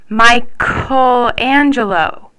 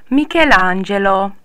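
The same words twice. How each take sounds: First: The word is said plainly, without Italian flair. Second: The word is said with a showy Italian flair.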